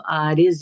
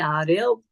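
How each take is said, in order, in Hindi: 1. आख़िरी व्यंजन एक सादी z ध्वनि है। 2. आख़िरी व्यंजन एक एम्फ़ैटिक d जैसी ध्वनि है। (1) "अगर हम इसको उर्दू में प्रोनाउंस करेंगे तो आरिज़ होगा" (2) "दौद अरबी में प्रोनाउंस करते हैं"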